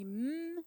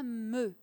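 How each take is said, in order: First: A bare m sound with no vowel after it. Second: An m sound followed by a short vowel. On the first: The speaker calls it right. "quand on dit m" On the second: The speaker calls it wrong. "on ne dit pas me"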